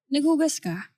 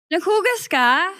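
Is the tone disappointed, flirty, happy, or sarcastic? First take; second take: disappointed; happy. First: It is said in a disappointed tone. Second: It is said in a happy tone.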